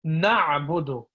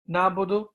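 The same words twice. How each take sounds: First: Slow "Na'budu" with the "a" from the throat; careful throat "Na'budu"; correct pronunciation. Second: "Nabudu" read as spelt, no throat sound; plain letter-by-letter "Nabudu"; "Nabudu" without the ain; wrong pronunciation. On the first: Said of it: "using our throat". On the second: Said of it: "is incorrect". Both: Shown as a demonstration.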